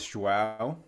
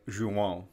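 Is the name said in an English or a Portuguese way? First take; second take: English; Portuguese. First: The name is said with English pronunciation. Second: The name is said with Portuguese pronunciation. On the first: "the English way is" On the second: "the Portuguese way is like"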